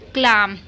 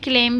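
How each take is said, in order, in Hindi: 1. स्वर खुली 'ah' ध्वनि है। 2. स्वर थोड़ी बंद 'ay' ध्वनि है। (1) "ए का आ मैंने बता रखा है तो सब में आ ही पढ़ा जाएगा" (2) "इसको हम क्लेम भी पढ़ देते हैं बहुत सारे लोग"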